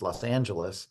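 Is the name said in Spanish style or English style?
English style. The name is said in an English style. Locals have made the name their own. The speaker calls it right. "it's pronounced"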